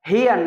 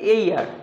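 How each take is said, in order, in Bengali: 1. শব্দটি h ধ্বনি দিয়ে শুরু হয়। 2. শব্দটি স্বরধ্বনি দিয়ে শুরু হয়। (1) "হেয়ার না" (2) "এর উচ্চারণ উচ্চারণ হচ্ছে এইয়ার"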